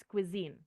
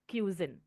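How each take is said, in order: First: "cuisine" said kwi-ZEEN, stressed on the second syllable; correct pronunciation of cuisine. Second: "cuisine" said KYOO-zin, stressed on the first syllable; the common slip "cuisine" as KYOO-zin; mispronounced cuisine. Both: Shown as a demonstration. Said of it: "It's not cuisine, it's cuisine".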